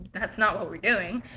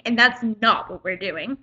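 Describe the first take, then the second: First: Soft, low, easy correction; polite correction. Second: Retold scolding with some attitude; teacher with attitude. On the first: Shown as a demonstration. How the teacher could have corrected the student, softly and politely. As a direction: say it quietly, without any attitude. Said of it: "don't have to talk to me like that". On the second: Teacher telling a reading student off, with attitude. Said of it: "he had so much attitude".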